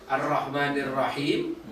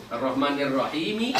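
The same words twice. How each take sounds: First: "Rahim" closed on the final m; pausal ending. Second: "Rahimi" with a final short i voiced; kasroh ending. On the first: Teacher recalling the preceding verse, pausal ending. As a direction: say "Rahim" without a final vowel, rising. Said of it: "sebelumnya apa sih?". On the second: Teacher showing the case ending, kasroh sounded. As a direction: add an i after the m in "Rahimi". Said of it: "Ini kan dibaca kasroh". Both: Shown as a demonstration.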